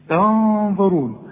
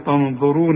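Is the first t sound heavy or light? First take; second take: light; heavy. First: The first t sound is light and thin. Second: The first t sound is heavy and thick. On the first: The speaker calls it right. "كل تاء في القرآن تا" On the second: The speaker calls it wrong. "اوعى تقول لي تنظرون"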